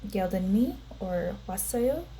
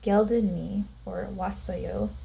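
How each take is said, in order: First: It is said with a questioning tune. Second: It is said with a plain statement tune. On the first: The speaker asks whether someone is here. "that will change the sentence to a question" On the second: The speaker states that they are here. "which means I am here"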